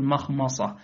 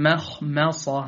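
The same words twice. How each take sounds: First: "مخمصة" with both m vowels dark; wrongly heavy mim. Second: Slow "مخمصة" with thin front a after each m; light mim. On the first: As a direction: thicken both mims of "مخمصة". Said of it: "فلا تقل مخمصة". (تفخيم ميمي "مخمصة") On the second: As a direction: keep both mims of "مخمصة" light. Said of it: "بل قل". (ترقيق ميمي "مخمصة") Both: Shown as a demonstration.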